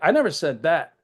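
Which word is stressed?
that. The stress is on the word that.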